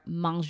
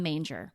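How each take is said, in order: First: The word is said with a French pronunciation. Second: The word is said like English 'manger'. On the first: The speaker calls it right. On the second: The speaker calls it wrong.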